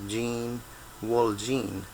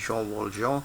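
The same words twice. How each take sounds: First: The name is said with English sounds. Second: The name is said with French sounds. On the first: "in English, you'd probably pronounce his name as" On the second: "the French pronunciation is"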